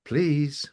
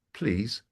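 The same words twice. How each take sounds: First: Higher-pitched pointed correction; acted assistant, primly insisting; insistent prompting. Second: Understated computer reminder; prompting assistant. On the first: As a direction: press for manners in a raised pitch. Assistant insists a second time. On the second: Acted. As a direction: quietly prompt for the magic word. Assistant's first prompt for manners.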